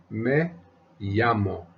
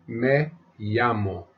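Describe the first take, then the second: The two takes are said the same way.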